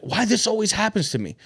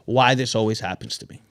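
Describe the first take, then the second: First: Said in the usual way. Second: Lower, sulky self-pitying complaint; mock self-pity. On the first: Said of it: "the story that you tell yourself". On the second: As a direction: say it like a defeated victim. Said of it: "is going to say".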